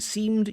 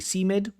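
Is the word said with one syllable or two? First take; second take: one; two. First: The final d joins the syllable directly. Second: An extra vowel before d adds a syllable. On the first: The speaker calls it right. "Instead of saying seemed" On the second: The speaker calls it wrong. "this also happens with a D"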